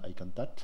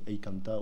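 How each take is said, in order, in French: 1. La consonne finale est prononcée. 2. La consonne finale est omise. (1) "au lieu de dire Aïkantat" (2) "j'arrête de prononcer les consonnes finales"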